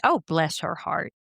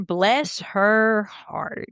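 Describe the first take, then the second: First: Gently sincere sympathy; quick, understated heartfelt sympathy. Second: Slow, drawn-out Southern inflection; hammed-up Southern drawl. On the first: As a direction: say it as if you mean it. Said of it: "It could be sincere". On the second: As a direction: stretch it out like a Southerner. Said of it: "Or like the Southern". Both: Shown as a demonstration.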